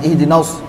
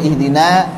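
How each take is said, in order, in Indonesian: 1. Vokal akhir dipotong pendek dan tidak sempurna. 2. Vokal akhirnya a terbuka yang penuh. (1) "Bukan ihdinas, fathahnya belum sempurna" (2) "yang betul ihdina"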